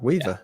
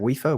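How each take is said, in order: First: The middle consonant is a v sound. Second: The middle consonant is an f sound. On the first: "Weaver. Yeah. Perfect" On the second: "I don't even know how to say his name"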